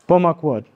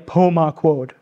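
First: The o vowels are reduced to schwa sounds. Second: The o vowels are pronounced as full O sounds. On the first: The speaker calls it right. "the O in Passamaquoddy is kind of like a schwa" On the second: The speaker calls it wrong. "So it's not really a Pomaquod"

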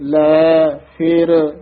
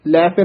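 First: The two words are kept apart as separate. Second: The two words are run together as one. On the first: The speaker calls it right. "ਇਹ ਸ਼ੁੱਧ ਬੋਲਣਾ ਹੈ" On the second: The speaker calls it wrong. "ਲੈ ਫਿਰ ਇਕੱਠਾ ਨਹੀਂ ਕਹਿ ਦੇਣਾ"

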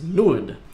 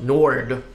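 First: The word is said with a Swedish pronunciation. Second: The word is said with an English pronunciation. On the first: The speaker calls it right. "in Swedish, it's pronounced Nord" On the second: The speaker calls it wrong. "not Nord"

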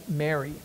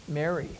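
No difference in how they are said.

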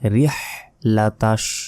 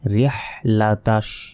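Both takes have the same delivery.

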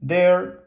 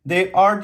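First: The words merge into one short syllable. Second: Both words are said fully and separately. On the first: "diye kısaltabilirim arkadaşlar" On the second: "They are diyebilirim"

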